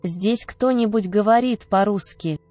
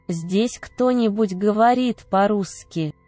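No difference in how they are said.

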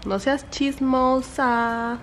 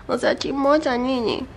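First: Slow, drawn-out singsong scolding; drawn-out mock telling-off; playful chiding. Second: Higher, cutesy pet voice; cooing little telling-off. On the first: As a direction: tease the pet, stretching every vowel. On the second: Chiding the dog in baby talk. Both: Real, not acted.

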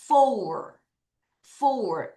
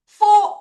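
First: FOUR with a glide, o-u then er, falling; correct pronunciation. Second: FOUR cut to one short loud, high 'fo', no r; wrong pronunciation. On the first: Teacher models four for pupils to follow, correct pronunciation. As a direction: draw FOUR through a rounded o-u into an r. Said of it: "요 발음을 해야 돼요". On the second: Teacher shows pupils how not to say four, wrong pronunciation. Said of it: "이게 아니라". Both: Shown as a demonstration.

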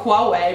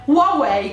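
First: Huawei said "hua-wei", falling. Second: Huawei said "wa-wei"; Huawei without H. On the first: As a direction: sound the H at the start of Huawei. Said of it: "pronunciando la H". (Huawei con acca aspirata) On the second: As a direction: leave the H of Huawei silent. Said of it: "la H non va assolutamente pronunciata". (Huawei detto "uauei") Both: Shown as a demonstration.

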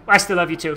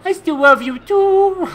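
First: Said in the usual way. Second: High, slow, silly sing-out; exaggerated, drawn-out mock sweetness; hammed-up affection. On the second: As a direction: stretch it out high and playful.

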